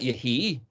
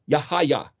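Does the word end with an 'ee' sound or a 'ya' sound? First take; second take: ee; ya. First: The word ends with an ee sound. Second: The word ends with a ya sound. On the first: "the yod suffix sounds like E" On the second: "the sound of the yod should be Ya again"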